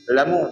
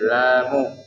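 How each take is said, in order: First: The vowel after the L is short. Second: The vowel after the L is long. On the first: The speaker calls it wrong. "dia tak bunyi lamu" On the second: The speaker calls it right. "dia bunyi lamu"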